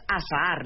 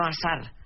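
First: "azar" with a long, doubled final A; "azar" stretched on the last vowel; drawn-out vowel. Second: Said in the usual way. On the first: Shown as a demonstration. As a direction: say "azar" as a-sa-AR, like azahar. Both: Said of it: "no azar".

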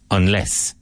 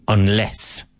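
Both takes have the same delivery.

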